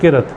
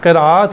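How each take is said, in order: First: It is said short, like 'kirat'. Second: It is said with a long vowel, like 'qiraat'. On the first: It sounds like a word meaning filth. The speaker calls it wrong. "लोग गलत बोलते हैं, किरत कहते हैं" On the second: It means recitation. The speaker calls it right. "क़िरात है सही लफ्ज़"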